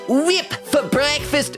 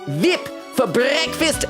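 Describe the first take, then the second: First: The first word begins with a W sound. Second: The first word begins with a V sound. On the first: "Should I say whip or vip?" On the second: "Should I say whip or vip?"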